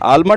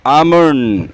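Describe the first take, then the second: First: The L sound is pronounced. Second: The L sound is silent. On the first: The speaker calls it wrong. "आलमंड is a wrong pronunciation" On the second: The speaker calls it right. "ये होता है आमंड"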